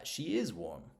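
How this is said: The word 'is' is said in full and stressed. "If you put emphasis on the on the verb there"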